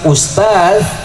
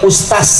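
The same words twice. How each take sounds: First: The word ends with a z sound. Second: The word ends with an s sound.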